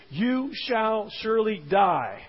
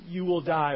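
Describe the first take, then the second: First: Slow, weighty "you shall surely die", each word set apart; emphatic. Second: "you will die" said lightly, without emphasis; weakened. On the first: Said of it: "stated in a very emphatic infinitive". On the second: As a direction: play down "you will die", tossed off mildly. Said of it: "her language begins to weaken it". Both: Retold or imitated.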